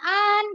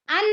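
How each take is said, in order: First: The vowel is drawn out long. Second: The vowel is said short. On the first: The speaker calls it wrong. "jangan an ya" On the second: The speaker calls it right. "jangan panjang"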